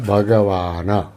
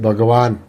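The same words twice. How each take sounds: First: The g and n are said with full vowels. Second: The g and n are said without vowels. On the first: This is the proper Sanskrit way of saying it. The speaker calls it right. "तो संस्कृत में बोला जाएगा भगवान" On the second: This is the everyday Hindi way of saying it. The speaker calls it wrong. "हम हिंदी में बोलेंगे भगवान, ग भी आधा हो गया, न भी आधा हो गया"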